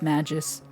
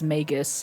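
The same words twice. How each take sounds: First: The g is soft, like the j sound. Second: The g is hard, like in go. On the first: The speaker calls it wrong. "I said Magus with a soft G because magic" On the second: The speaker calls it right. "but she says Magus"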